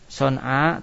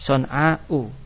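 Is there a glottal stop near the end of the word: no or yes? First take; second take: No; Yes. First: The word ends in a long vowel, no glottal stop. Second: The word ends with a glottal stop and vowel. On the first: This is the shortened form used under poetic license. "son'a tanpa hamzah ya" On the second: This is the original full form of the word. "asalnya itu ada hamzahnya"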